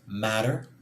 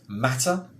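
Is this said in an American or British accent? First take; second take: American; British. First: It is said in an American accent. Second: It is said in a British accent.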